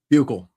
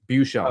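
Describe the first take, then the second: First: The name ends with a 'gull' sound, like bugle. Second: The name ends with a 'shell' sound. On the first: The speaker calls it right. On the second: The speaker calls it wrong.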